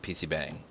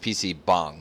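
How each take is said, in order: First: The last word is said an anglicized way. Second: The last word is said the Korean way. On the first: The speaker calls it wrong. "not P C Bang" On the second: The speaker calls it right. "It's P C Bong"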